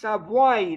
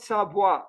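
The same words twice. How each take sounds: First: The word ends with a slight ee-like glide. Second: The word ends without that slight ee glide. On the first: The speaker calls it right. "it's in between... There is a, a touch of uh, I at the end" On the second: The speaker calls it wrong.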